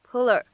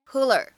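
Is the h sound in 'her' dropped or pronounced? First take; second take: dropped; dropped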